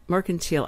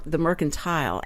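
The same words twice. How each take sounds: First: "Mercantile" ending in "teel", MER-kun-teel; Texas way. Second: "mercantile" ending in "tile", MER-kun-tile; Yankee way. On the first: Host correcting herself to the local "Mercantile", ending "teel". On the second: Host showing the Yankee "mercantile", ending "tile". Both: Shown as a demonstration. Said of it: "that was the Yankee way to say it".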